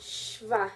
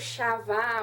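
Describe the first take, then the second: First: No vowel is sounded after the first consonant. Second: A vowel is sounded after the first consonant. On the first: The speaker calls it right. "É simplesmente o som do Shin" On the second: The speaker calls it wrong. "eu não pronuncio Shavá"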